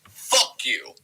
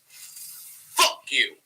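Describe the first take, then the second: First: It is said with milder emphasis. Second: It is said with stronger emphasis.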